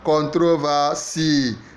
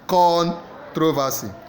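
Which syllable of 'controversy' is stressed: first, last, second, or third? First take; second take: last; first. First: The stress is on the last syllable. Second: The stress is on the first syllable. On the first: "So last syllable" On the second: "A first syllable"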